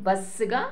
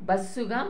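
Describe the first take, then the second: Both takes have the same delivery.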